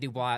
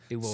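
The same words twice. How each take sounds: First: The final S sound is silent. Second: The final S sound is pronounced. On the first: It sounds like an outsider saying it. The speaker calls it wrong. "You say Dubois out here, they're going to look at you like you're funny" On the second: It sounds like a local saying it. The speaker calls it right. "you got to make sure you pronounce the S out here"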